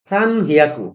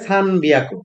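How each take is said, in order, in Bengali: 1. দ্বিতীয় শব্দটি h ধ্বনি দিয়ে শুরু হয়। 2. দ্বিতীয় শব্দটি b ধ্বনি দিয়ে শুরু হয়। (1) "এটা হওয়ার কথা ছিল সান হিয়াকু" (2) "এটা হয়ে যায় সান বিয়াকু"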